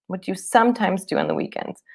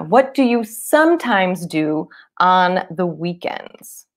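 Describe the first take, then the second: First: Quick, run-together question; natural fast question. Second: Slow, stretched teacher read; slow model question. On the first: Teacher giving the question at natural speed. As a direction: say it fast like a native. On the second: Teacher modelling the question slowly for students. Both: Shown as a demonstration.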